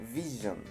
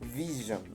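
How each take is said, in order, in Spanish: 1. La consonante del medio es un sonido zh sonoro. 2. La consonante del medio es un sonido zh sonoro.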